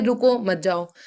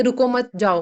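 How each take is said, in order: First: "रुको", break, then "मत जाओ" falling; pause after रुको. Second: "रुको मत" together, break, then "जाओ"; pause after मत. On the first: Teacher showing what we meant, pause after "रुको". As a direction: stop on "रुको" and keep "मत जाओ" together. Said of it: "हम बोल रहे हैं". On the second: Teacher showing what the customer understood, pause after "मत". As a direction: put the comma after "मत", falling on "जाओ". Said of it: "लेकिन वो रुकता नहीं है". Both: Shown as a demonstration.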